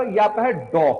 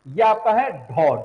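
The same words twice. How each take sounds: First: डॉ said with a plain unaspirated ड, no breath puff; plain ड sound. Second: ढौ said slowly with a breathy aspirated ढ; slow down and push breath out on ढौ. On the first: Teacher showing the डमरू ड to students, plain and unaspirated. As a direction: say डॉ crisp, no breath after the ड. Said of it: "डमरू वाला". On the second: Teacher showing the ढक्कन ढ to students, slow and aspirated. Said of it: "ढकन वाला". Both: Shown as a demonstration.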